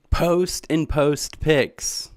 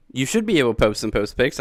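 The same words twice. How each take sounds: First: Very slow, deliberate; slow spelled out. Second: Said in the usual way. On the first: Real, not acted. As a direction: lay it out word by word. Spelling out channel name.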